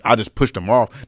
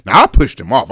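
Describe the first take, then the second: First: Said in the usual way. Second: "I pushed him off" punched out louder; emphatic correction. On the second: Real, not acted. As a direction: hit "I pushed him off" hard, insisting. Corrects himself with more force.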